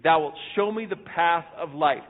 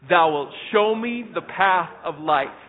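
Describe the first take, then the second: First: It is said plainly, without extra force. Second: It is said forcefully, with authority.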